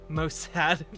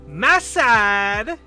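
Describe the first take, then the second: First: It is said in his normal voice. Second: It is said in a Borat impression.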